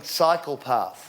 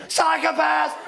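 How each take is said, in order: First: "psychopath" said slowly as "cycle path". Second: High, drive-by yell; imitated yell. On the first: Retold or imitated. Someone explains the shout to him, "psychopath" said as "cycle path". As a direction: correct the mishearing, sounding "psychopath" as "cycle path". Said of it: "they're yelling 'psychopath.'". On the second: Guy on a bicycle yells at a walker, mock yell. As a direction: imitate a cyclist hurling it at a stranger. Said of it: "does the same thing".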